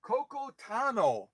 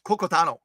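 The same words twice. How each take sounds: First: Coco Tano drawn out slowly and softly. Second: Coco Tano run together quickly; really fast. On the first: Host trying out a viewer's unfamiliar name, slowly. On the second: Host testing the viewer's name said really fast. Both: Shown as a demonstration. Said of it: "I have to say it really fast".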